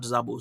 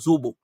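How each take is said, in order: First: The first syllable sounds like 'za'. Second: The first syllable sounds like 'zo'. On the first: The speaker calls it wrong. "not Zabo" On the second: The speaker calls it right.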